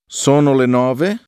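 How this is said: It is said with a rising question tune. It asks whether it is so.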